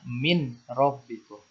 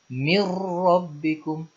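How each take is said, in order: First: The n is pronounced clearly before the r. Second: The n merges into the r. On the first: The speaker calls it wrong. "tidak boleh dibaca min rabbikum" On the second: The speaker calls it right. "harus diidghamkan ke huruf ro tanpa disertai dengung"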